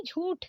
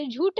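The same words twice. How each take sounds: First: झूठ ending in breathed th; correct aspirated ठ. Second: झूठ said as jhoot, plain retroflex t; wrong ट for ठ. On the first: Teacher correcting it, झूठ with aspirated retroflex th. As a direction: puff the ठ in झूठ. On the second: Teacher showing the mistake, झूठ with plain t. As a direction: end झूठ without a puff. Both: Shown as a demonstration. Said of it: "झूठ नहीं झूठ".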